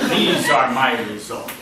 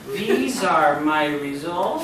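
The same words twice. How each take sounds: First: The voice is low and falls at the end. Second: The voice is high and rises at the end. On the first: The speaker is confident and authoritative. The speaker calls it right. "lower your voice" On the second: The speaker doubts their own results. The speaker calls it wrong. "always does the opposite"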